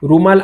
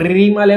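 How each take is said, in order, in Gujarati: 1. પહેલો ભાગ 'ru' તરીકે બોલાય છે. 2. પહેલો ભાગ 'ri' તરીકે બોલાય છે. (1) "ર સાથે ઉ જોડીને આપણે રૂમાલ આ રીતનું આપણે ઉચ્ચારણ" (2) "આપણે રીમાલ એમ નથી બોલતા"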